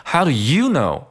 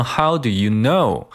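First: Slow challenge with YOU swung high; stress on YOU. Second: Neutral question with KNOW carrying the pitch peak; stress on KNOW. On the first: Teacher demonstrates Manny's challenge, stress on YOU. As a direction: punch YOU up, then drop on KNOW. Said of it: "重音不同带来的两个句子的意思的不同". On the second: Teacher demonstrates the normal reading, stress on KNOW. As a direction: put the weight on the final word KNOW. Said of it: "重心应该放在know上". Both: Shown as a demonstration.

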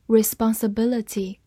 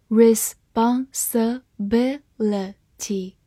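First: Said in the usual way. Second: "Responsibility" broken into slow, separate syllables. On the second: Shown as a demonstration. Teacher sounding out "Responsibility" for learners, syllable by syllable. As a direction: say "Responsibility" slowly, a gap after each syllable.

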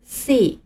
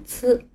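First: "C" read as English see; 英文读法的C. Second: "C" read as pinyin ci, tsih; 按拼音读C. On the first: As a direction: say "C" as the English letter name see. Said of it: "在英文里这个字母读作C". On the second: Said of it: "汉语拼音里的字母C". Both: Shown as a demonstration.

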